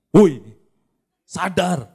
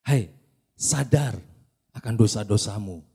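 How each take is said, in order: First: It is said loudly and harshly. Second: It is said softly and gently.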